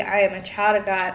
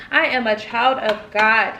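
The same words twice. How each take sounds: First: Said in the usual way. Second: Put-on slow, each word weighted: "I am a child of God"; emphatic affirmation. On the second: Shown as a demonstration.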